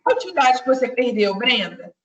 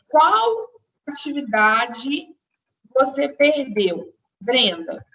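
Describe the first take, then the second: First: Fast, run together, as if really asking a student; just ask Brenda casually; quick everyday question to a student; quick natural address. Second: Slow, spaced example with a pause before Brenda; slow classroom example sentence; slow and deliberate. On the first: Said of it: "aí eu falo com ela". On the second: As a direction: dictate it word by word. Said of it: "se eu falo assim". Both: Shown as a demonstration.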